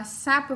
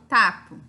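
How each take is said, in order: First: Said in the usual way. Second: "tapo", the s stopped into a t; child's s to t swap. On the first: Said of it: "ao invés de eu falar sapo". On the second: Shown as a demonstration. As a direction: say "tapo" with a hard t instead of s. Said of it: "eu falo tapo".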